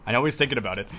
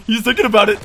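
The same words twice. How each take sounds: First: Low and softer, half to himself. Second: Louder and higher, stress on thinking. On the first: Gamer suspecting an enemy's next move, softer. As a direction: murmur the suspicion. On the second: Gamer warning about an enemy's next move, louder. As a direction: call out the suspicion. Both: Real, not acted.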